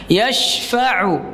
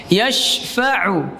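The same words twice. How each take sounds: Both takes have the same delivery.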